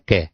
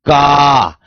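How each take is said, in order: First: The syllable is said plainly, without extra force. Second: The syllable is said with strong extra force. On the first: "सामान्य रूप से पढ़ सकते हैं" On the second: "इससे अधिक इस पर बल दूंगा"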